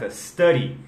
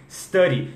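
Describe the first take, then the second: No difference in how they are said.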